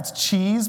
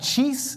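First: The word endings are buzzing Z sounds. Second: The word endings are hissing S sounds. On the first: "yeah, it's cheese, please" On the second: "I don't say, can I have some cheese, please?"

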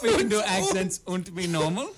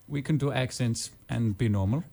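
First: It is said in a put-on German accent. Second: It is said in a normal, unaccented voice.

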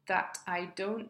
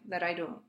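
First: The three words are said fully and separately. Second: The three words are squashed into one.

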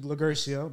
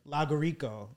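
First: The middle sounds like a plain ger sound. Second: The middle sounds like guri, with syllables rearranged. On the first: This is the slip teachers might be expected to make. "I expected Lagercio" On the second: This is what teachers actually said. "but I would get like Lagurico"

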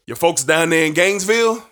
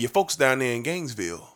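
First: It is said more loudly. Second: It is said at a normal volume.

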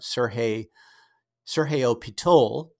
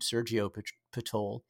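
First: The name is said with a Spanish accent. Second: The name is said with an American accent.

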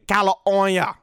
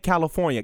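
First: The word is said in a heavy accent, dropping a sound. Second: The word is said with every sound clear. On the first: The speaker calls it wrong. "He left that whole fucking F out" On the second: The speaker calls it right. "He don't even say California"

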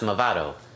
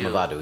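First: The last syllable does not sound like 'doo'. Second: The last syllable sounds like 'doo' in 'dude'. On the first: The speaker calls it right. "no, it's Movado" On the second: The speaker calls it wrong. "because you said, like, D-O, like, dude"

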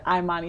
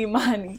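First: The name is said with a Midwestern twang. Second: The name is said with a standard pronunciation. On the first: This is how the family says it. "It's the Midwestern twang. My folks grew up in the Midwest, so they said Imani" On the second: This is the technically correct form. "even though it's technically Imani"

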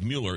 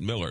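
First: The first syllable sounds like 'mew'. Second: The first syllable sounds like 'mill'. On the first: The speaker calls it wrong. "Looks like Mueller" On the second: The speaker calls it right. "You pronounce it Miller"

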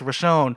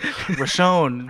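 First: The second syllable does not sound like 'Sean'. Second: The second syllable sounds like 'Sean'. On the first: The speaker calls it right. "no, it's Rashawn" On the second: The speaker calls it wrong. "as he's mispronouncing it"

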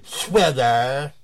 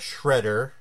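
First: It is said in a put-on character voice. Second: It is said in a normal speaking voice. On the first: The speaker calls it right. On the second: The speaker calls it wrong.

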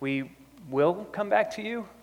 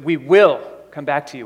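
First: It is said with doubt and hesitation. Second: It is said with confidence.

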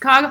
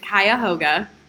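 First: The name is said casually, with reduced syllables. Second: Every syllable of the name is carefully enunciated.

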